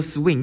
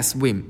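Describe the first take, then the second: First: "Swing" said with a final ng, the word he was corrected to; repeating the colleagues' "Swing" as he mistakes it for swim; mistaken swing. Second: "swim" said with a closing m, the word he meant; insisting on "swim" to coworkers laughing at him; intended swim. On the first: 说英文时把swim误听成Swing. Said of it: "yeah, swim". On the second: 坚持说出本来想说的swim. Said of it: "Swing, yeah, swim". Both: Retold or imitated.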